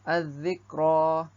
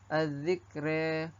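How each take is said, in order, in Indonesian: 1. Vokal akhir adalah a terbuka yang biasa. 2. Vokal akhir condong ke arah e.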